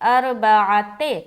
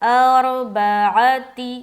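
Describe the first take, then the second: First: The final vowel is an ay sound. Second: The final vowel is a long ee sound. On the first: The speaker calls it wrong. "ते नहीं पढ़ना" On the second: The speaker calls it right. "ती पढ़ेंगे"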